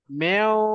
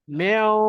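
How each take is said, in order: The two takes are said the same way.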